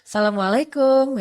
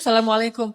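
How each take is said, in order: First: The greeting is said in a flirtatious tone. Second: The greeting is said in a plain tone.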